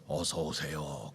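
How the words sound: The greeting is said at a very low pitch. The speaker calls it wrong. "아주 저음으로"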